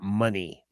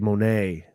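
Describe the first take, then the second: First: The name ends in an 'ee' sound, like money. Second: The name ends in an 'ay' sound, like mo-nay. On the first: The speaker calls it wrong. "not money" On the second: The speaker calls it right. "it's supposed to be Monet"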